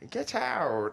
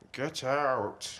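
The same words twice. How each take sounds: First: It is said in a happy tone. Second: It is said in a stern tone.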